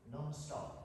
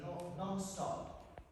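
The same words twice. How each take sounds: First: Said in the usual way. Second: Slow, stretched "no, non-stop" with a falling end; drawn-out non-stop. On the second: Shown as a demonstration. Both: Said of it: "take yourself to full intensity".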